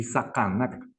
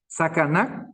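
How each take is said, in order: First: "sacanac" with glottal Q sounds for the c; second contrasted pronunciation. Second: "Sacanac" with plain front k sounds, tune rising; first contrasted pronunciation. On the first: Teacher shows how different it is, throaty-Q "sacanac". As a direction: make the k in "sacanac" far back in the throat. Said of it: "qué diferente". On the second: Teacher asks if it can be heard, plain-C "Sacanac". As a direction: model "Sacanac" with an ordinary C. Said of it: "se puede escuchar?". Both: Shown as a demonstration.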